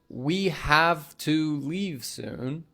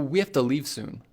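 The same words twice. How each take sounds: First: 'Have to' is said fully with a clear 'v'. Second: 'Have to' is blended into one word, 'hafta'. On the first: "So instead of saying" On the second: "have to becomes hafta"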